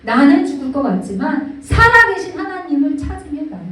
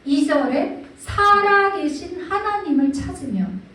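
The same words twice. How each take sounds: First: 살아계신 hit loud and falling; loud emphasis. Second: 살아계신 drawn out slowly with a falling close; slow, deliberate stress on 살아계신; slow emphasis. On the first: Preacher pressing 살아계신 home to the congregation, loud. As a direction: lean hard on 살아계신, louder. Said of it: "교차되는 게 보이죠". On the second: Preacher slowly stressing 살아계신 to the congregation. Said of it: "대비가 되는 건 뭐냐면". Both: Shown as a demonstration.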